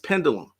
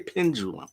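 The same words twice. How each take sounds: First: The middle consonant sounds like a plain D. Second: The middle consonant sounds like a J. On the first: The speaker calls it right. "It's pendulum" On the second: The speaker calls it wrong. "There's no G, there's no J in it. Why do you say pendulum?"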